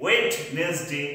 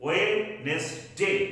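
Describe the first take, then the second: First: Wednesday drawn out with the D sounded, slow; Wednesday spelled out slowly, wrong; slow wrong pronunciation. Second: Wednesday said slowly as WENZ-day; Wednesday with silent D, slow; slow correct pronunciation. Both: Shown as a demonstration. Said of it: "this is wrong".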